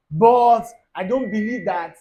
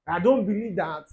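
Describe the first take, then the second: First: Loud, slow, exaggerated objection; a hammed-up loud protest; mock loud protest. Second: Said in the usual way. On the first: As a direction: bellow it out slowly in mock indignation. Mocking a lukewarm believer.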